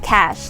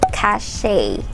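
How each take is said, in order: First: It has one syllable, sounding like 'cash'. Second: It has two syllables, ending in 'shay'. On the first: The speaker calls it right. "It's pronounced as cash, like money" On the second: The speaker calls it wrong. "not cachet"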